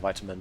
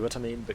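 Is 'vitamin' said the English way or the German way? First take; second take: English; German. First: It is said with an English pronunciation. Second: It is said with a German pronunciation. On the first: The speaker calls it right. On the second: The speaker calls it wrong.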